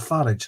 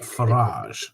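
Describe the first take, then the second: First: The name is said in a plain accent. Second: The name is said in a posh accent.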